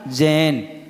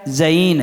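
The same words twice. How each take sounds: First: The first vowel is a single plain vowel. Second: The first vowel glides through two sounds. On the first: This is how people usually say it. The speaker calls it wrong. "और बोल रहे क्या" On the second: This matches how it is written. The speaker calls it right. "दो में क्या बोला जाएगा"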